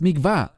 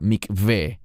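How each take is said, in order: First: The word ends with an 'ah' vowel. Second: The word ends with an 'eh' vowel. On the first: The speaker calls it wrong. "Normalmente los mesiánicos que hablan inglés lo pronuncian como mikvah. No es mikvah" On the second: The speaker calls it right. "es la palabra mikveh"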